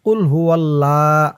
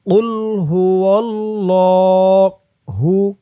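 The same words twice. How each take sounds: First: কুল হু আল্লাহ with a thin, light lam in আল্লাহ; wrong pronunciation. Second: কুল হু অল্লাহু with a heavy, full-mouthed doubled lam and a slow drawn-out ending; correct pronunciation. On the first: Teacher shows students the wrong way to say the lam. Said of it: "এভাবে বললে কিন্তু লামের উচ্চারণটা শুদ্ধ হয় না". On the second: Teacher shows students the correct heavy lam. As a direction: stretch অল্লাহু slowly with a thick lam. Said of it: "অল্লাহ বলতে হবে". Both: Shown as a demonstration.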